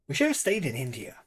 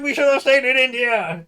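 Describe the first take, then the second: First: It is said at a calm volume. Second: It is yelled loudly.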